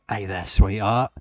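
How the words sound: It is said in a British accent.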